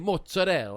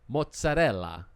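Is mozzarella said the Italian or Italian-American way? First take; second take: Italian-American; Italian. First: It is said with an Italian-American accent. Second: It is said with an Italian accent. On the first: This is how people back home say it. The speaker calls it wrong. "they say mozzarella" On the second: This is how people in Italy say it. The speaker calls it right. "That's how they say it in Italy"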